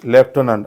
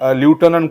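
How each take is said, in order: First: The first syllable sounds like lef. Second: The first syllable sounds like loo. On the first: The speaker calls it right. "याचा correct उच्चार काय होईल" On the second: The speaker calls it wrong. "बऱ्याचदा मुलं विद्यार्थी ल्युटनंट करतात"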